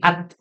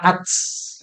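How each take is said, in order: First: The final t is clipped and held. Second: The final t is released with a hiss. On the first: The speaker calls it right. "tapi at" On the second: The speaker calls it wrong. "bukan ats"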